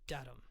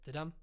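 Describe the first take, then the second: First: The stress falls on the first syllable. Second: The stress falls on the second syllable. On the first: "a trochee is" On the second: "An iamb is"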